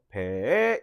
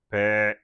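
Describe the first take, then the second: First: The pitch starts low and then rises. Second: The word is said on a low level pitch. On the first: "상성으로 낮다가 높은 소리" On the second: "평성으로서 어떻게 발음을 써?"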